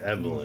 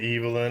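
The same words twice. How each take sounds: First: The first syllable sounds like 'Ev'. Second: The first syllable sounds like 'Eve'. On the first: This is how the name should be said. The speaker calls it right. "dude, it's fucking Evelyn" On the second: This is how the British characters say the name. The speaker calls it wrong. "Every time he said Evelyn"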